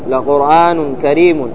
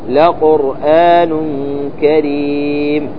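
First: The last word ends with a vowel and n sound. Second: The last word ends on a silent m sound. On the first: The reading continues without stopping. "التنوين من المضموم والمكسور" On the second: The reader stops on this word. "في الوقف يحذف التنوين ويوقف بالسكون"

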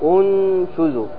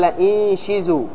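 First: The word begins with a 'u' vowel. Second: The word begins with an 'i' vowel. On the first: "ومنهم من ضم انشزوا" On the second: "قرأ بكسر الهمزة فقال انشزوا"

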